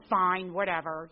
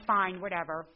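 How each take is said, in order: First: Slow, loud, dismissive shrug; flip attitude. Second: Flip attitude. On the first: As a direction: brush her off with a drawn-out whatever. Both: Retold or imitated. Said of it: "with my flip attitude".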